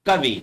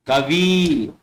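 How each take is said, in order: First: कवि clipped with short i; correct short ending. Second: कवि with a stretched ee; wrong long ending. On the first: Teacher models correct कवि, short "vi". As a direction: say कवि as quick "ka-vi". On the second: Teacher shows the wrong कवि, long "vee". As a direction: say कवि as "ka-veee". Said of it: "कवि नहीं होगा". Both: Shown as a demonstration.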